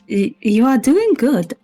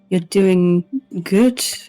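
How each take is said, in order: First: It is said in a put-on character voice. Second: It is said in the speaker's ordinary voice.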